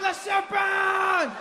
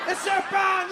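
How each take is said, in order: First: Put-on Le serpent stretched slowly, high and shouted in a French accent; slow, wailing French-accented alarm; drawn-out French cry. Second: Put-on Le serpent fired off high and shouted in a French accent; fast French-accented panic; quick French cry. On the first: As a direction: hold the scream of "Le serpent" long. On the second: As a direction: blurt "Le serpent" in alarm. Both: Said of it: "The French guy was my favorite".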